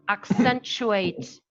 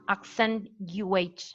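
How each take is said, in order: First: The t and y merge into a ch sound. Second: The t and y sounds stay separate. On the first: The speaker calls it right. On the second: The speaker calls it wrong.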